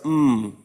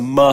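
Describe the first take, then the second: First: The consonant is held with no added vowel. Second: The consonant has an added vowel after it. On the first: The speaker calls it right. "M makes the M sound" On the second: The speaker calls it wrong. "what are they going to say?"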